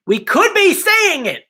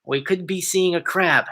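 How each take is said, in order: First: High, slow hopeful emphasis; excited. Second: Said in the usual way. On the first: Real, not acted. Hyped repeat of crab hope.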